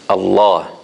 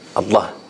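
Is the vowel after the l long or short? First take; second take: long; short. First: The vowel after the l is held long. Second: The vowel after the l is cut short. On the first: "So here we say Allah" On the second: "without the alif"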